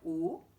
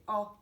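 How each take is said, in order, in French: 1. La voyelle se prononce avec la bouche fermée. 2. La voyelle se prononce avec la bouche plus large. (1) "Au lieu de faire O" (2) "elle doit s'ouvrir un peu plus"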